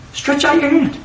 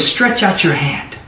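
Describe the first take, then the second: First: Much higher, strained-up pitch; high-pitched repeat. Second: Said in the usual way. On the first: Shown as a demonstration. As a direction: lift the voice right up on the command. Repeats it with effort.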